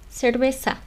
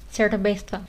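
First: The z is said softly, like an s. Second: The z is said with the tongue out, like th.

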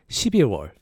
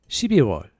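No difference in how they are said.

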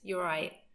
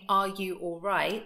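First: The phrase is said shortened with words run together. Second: The phrase is said in full with every word clear. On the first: The speaker is just saying hello. "it's just very short" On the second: The speaker is really asking if the person is okay. "would sound more like you're asking if a person is okay"

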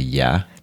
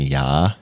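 First: It is said short and plain. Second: It is drawn out, California style.

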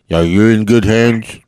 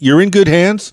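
First: It is said in a deep imitated voice. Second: It is said in his normal voice.

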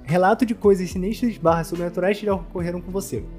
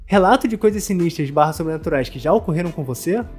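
First: It is read plainly, with no exaggerated rise. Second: It is read with an exaggerated questioning rise.

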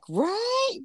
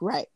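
First: It sounds like an emphatic, trendy tag. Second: It sounds like calm, simple agreement. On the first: It is an overused tag added after a statement. The speaker calls it wrong. "But people are like, right?" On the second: The speaker agrees and means yes. The speaker calls it right. "we can say something is right"

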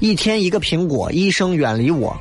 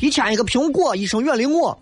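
First: It is said in standard Mandarin. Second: It is said in a local Shaanxi accent.

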